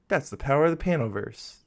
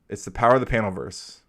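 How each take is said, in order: First: It is said imitating Sora's voice. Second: It is said in his normal voice.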